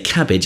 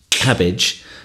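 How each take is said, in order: First: The first consonant is released quietly and gently. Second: The first consonant is released with a forceful burst. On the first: The speaker calls it right. "it's just k, very gently" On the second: The speaker calls it wrong. "it's not cabbage"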